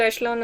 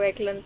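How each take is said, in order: First: The middle consonant is a 'sh' sound. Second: The middle consonant is a 'k' sound. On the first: "मेरे हिसाब से तो एशलॉन होती है" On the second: "हम भी पहले यही बोलते थे"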